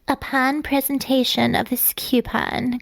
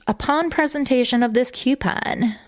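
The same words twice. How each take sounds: First: It is read in Carla's girly, innocent voice. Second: It is read in the speaker's normal voice.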